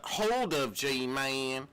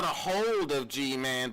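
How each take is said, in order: First: "hold of G-Man" slowly, no "a" before "hold"; slow "hold of G-Man" without the article; correcting slowly. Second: Said in the usual way. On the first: Shown as a demonstration. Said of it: "Not a hold of G-Man". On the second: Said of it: "Not a hold of G-Man, but hold of G-Man".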